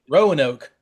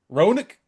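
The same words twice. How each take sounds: First: It is pronounced the way the spelling suggests. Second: It is pronounced the way locals say it. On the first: This is how an outsider would say it. The speaker calls it wrong. "the way you would think they're me- to be said" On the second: This is how people from the area say it. The speaker calls it right. "the names are actually"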